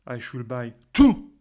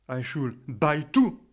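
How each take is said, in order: First: The stress is on the word two. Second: The stress is on the word buy. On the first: Even one ticket would be too many. "si j'insiste sur le mot to" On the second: The tickets should be given, not bought. "je vais insister sur le verbe buy"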